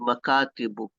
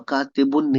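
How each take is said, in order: First: The word ends in a plain -u vowel. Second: The word ends in an -un sound. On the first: The speaker calls it right. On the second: The speaker calls it wrong.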